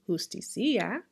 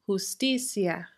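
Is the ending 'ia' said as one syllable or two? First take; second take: two; one. First: The 'i' is stressed and split from the 'a'. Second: The ending 'ia' blends into one unstressed syllable. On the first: The speaker calls it wrong. "We're not going to say justicia" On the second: The speaker calls it right. "we pronounce them together as one syllable"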